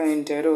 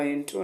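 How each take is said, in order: First: इंटेरो with a full "te" syllable; इंटेरो in three syllables, not two; corrected pronunciation. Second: इंट्रो with "tro" as one syllable; इंट्रो in two syllables, the "te" dropped; mispronunciation shown. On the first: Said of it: "तो इसका इंटेरो होगा". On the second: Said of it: "इंट्रो नहीं होगा". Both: Shown as a demonstration.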